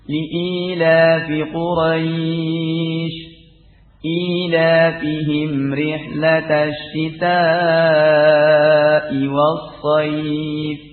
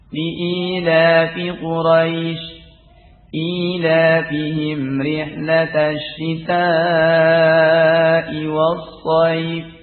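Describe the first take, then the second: First: The vowel sound in Quraisy is held long. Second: The vowel sound in Quraisy is kept short. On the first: "Dibaca mad" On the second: "dengan pendek"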